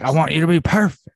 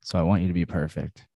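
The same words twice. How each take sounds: First: "perfect" punched hard, higher and louder, said fast; emphatic Duvall line. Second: Said in the usual way. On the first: Retold or imitated. Host mimicking Robert Duvall ordering Tom Cruise, emphatic. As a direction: lean hard on "perfect" like a race boss. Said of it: "he says it very emphatically". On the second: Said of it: "something about the word perfect".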